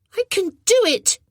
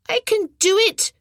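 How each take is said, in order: First: Insisting. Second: Put-on stubborn boy. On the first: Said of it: "he insisted". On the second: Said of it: "he answered". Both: A narrator's reading.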